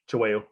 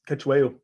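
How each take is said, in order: First: The name is said with native Zulu sounds. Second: The name is said with anglicized sounds.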